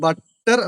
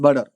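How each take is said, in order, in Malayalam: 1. നടുവിലെ വ്യഞ്ജനം വ്യക്തമായ t ശബ്ദമാണ്. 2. നടുവിലെ വ്യഞ്ജനം വേഗത്തിലുള്ള d പോലുള്ള ഫ്ലാപ്പ് ആണ്. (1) "ഇത് നമ്മൾ രണ്ട് രീതിക്ക് പറയാൻ പറ്റും" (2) "in American English it is also known as"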